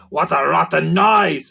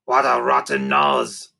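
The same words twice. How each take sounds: First: Louder creaker voice, the corrected word. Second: Low, slow creaker growl with the wrong word; a slow, lower slip of the creature line. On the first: Narrator voicing Sniff, correcting the word, in a louder creaker voice. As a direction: say the line again, louder, as the creature. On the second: Narrator voicing Sniff, stumbling on the word, in a low slow creaker voice. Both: A narrator's reading.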